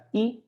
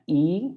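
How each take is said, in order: First: E said very short; short vowel. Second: E held a bit longer, higher; long vowel. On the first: Teacher contrasting Dutch vowels, E kept short. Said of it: "this one is very short". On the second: Teacher contrasting Dutch vowels, E drawn longer. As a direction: stretch the vowel in E. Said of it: "this one is a bit longer". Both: Shown as a demonstration.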